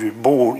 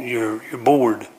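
First: Said in the usual way. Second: "bored" drawn out slow and falling; slow right down and lean on "bored"; slow emphatic repeat. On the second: Shown as a demonstration. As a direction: let "you're bored" sink, slow and heavy.

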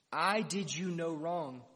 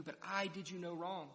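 First: Slow and louder, each word weighed; firm rebuke. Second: Said in the usual way. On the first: Acted. Master rebuking the grumbling laborer, slow firm loud rebuke.

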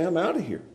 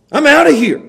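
First: Much softer, resigned surrender; defeated murmur. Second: High, loud, I'm done; fed-up quitter. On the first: Pastor giving up, soft resigned murmur. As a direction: let it fall away, beaten. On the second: Preacher voicing Timothy, loud fed-up quit. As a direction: blurt out the exit. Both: Acted.

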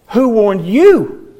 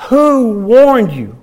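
First: "Who warned you?" slow, with "you" punched and falling; stress on YOU. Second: "Who warned you?" slow, with "Who" punched and "you" falling away; stress on WHO. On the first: Preacher testing how John said it, weight on "you". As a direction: lean hard on "you", pointing at them. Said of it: "Maybe, maybe the you". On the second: Preacher testing how John said it, weight on "Who". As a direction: lean hard on "Who" and draw it out. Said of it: "Or maybe he said". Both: Shown as a demonstration.

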